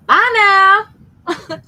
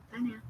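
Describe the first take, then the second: First: Loud, high, drawn-out Southern farewell; hammed-up Southern twang, ringing out; Southern drawl. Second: Said in the usual way. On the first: Shown as a demonstration. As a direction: belt it out in a big Southern drawl. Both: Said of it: "That's my southern drawl".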